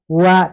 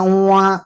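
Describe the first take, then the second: First: The syllable is said without nasal sound. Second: The syllable is said through the nose. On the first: The speaker calls it right. "wa biasa aja" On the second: The speaker calls it wrong. "tidak boleh masuk hidung"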